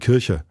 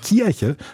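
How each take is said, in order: First: It is said in a mumbled, relaxed way. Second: It is said carefully, with a Westphalian accent.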